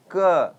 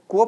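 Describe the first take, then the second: First: क ending on an open short A; no final O. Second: को with a closing O sound; wrong final vowel. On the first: Teacher models the letter for students, क with no closing O. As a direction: say क without rounding into O at the end. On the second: Teacher shows students the wrong reading, को ending in O. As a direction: let the letter end in a round O, को. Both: Shown as a demonstration. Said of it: "last में ओ नहीं आना चाहिए".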